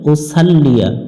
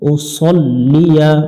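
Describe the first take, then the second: First: The second syllable has a light 'sa' vowel. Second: The second syllable has a heavy, rounded 'so' vowel. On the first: The speaker calls it wrong. "এখানে অনেকজনে ভুল করে" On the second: The speaker calls it right. "উসাল পড়া যাবে না"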